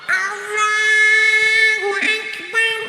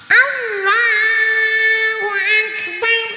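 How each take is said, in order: No difference in how they are said.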